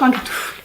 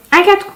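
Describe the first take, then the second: First: Breathy whisper, almost to herself; whispered aside. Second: Said in the usual way. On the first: Real, not acted. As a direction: drop to a whisper under her breath. Repeats the word, then whispers it. (chuchoté pour soi, dans un souffle)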